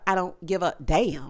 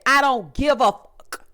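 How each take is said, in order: First: It is said in a softer tone. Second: It is said harshly, with venom.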